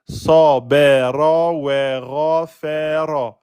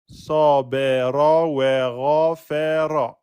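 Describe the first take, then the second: No difference in how they are said.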